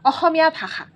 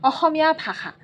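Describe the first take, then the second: No difference in how they are said.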